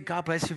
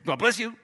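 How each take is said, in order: First: It is said flatly, just routinely. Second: It is said with strong emphasis.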